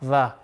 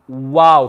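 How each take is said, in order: First: The letter starts with a v sound. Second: The letter starts with a w sound. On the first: The speaker calls it wrong. "A lot of people, they'll read this letter va" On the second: The speaker calls it right. "Can you see how my lips become a wow"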